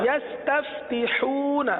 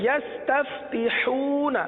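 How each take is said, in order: Both takes have the same delivery.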